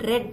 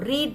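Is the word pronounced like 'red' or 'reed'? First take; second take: red; reed. First: The vowel is short, like 'red'. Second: The vowel is long, like 'reed'. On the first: It is the past participle form. "రెడ్ అని పలుకుతాం అనమాట" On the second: It is the present-tense form. "రాయడం రీడే రాస్తాము"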